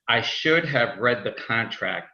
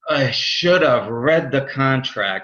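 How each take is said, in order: First: It is said flatly, without feeling. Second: It is said with strong regretful feeling.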